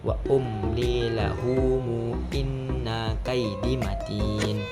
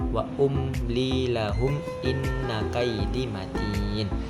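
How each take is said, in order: First: The word 'lahum' gains an added u vowel. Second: The word 'lahum' ends on a closed m. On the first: "Dengan silah, yaitu disambung" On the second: "tanpa silah"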